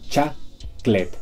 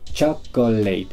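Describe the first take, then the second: First: The word is said with two syllables. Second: The word is said with three syllables. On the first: "podemos abreviarla a chaclet" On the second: "Tres sílabas"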